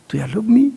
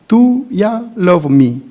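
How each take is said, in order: First: The word 'you' is reduced to 'ya'. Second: The word 'you' is said in full.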